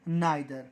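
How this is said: The first vowel sounds like 'eye'. "American में इसको क्या बोलते हैं"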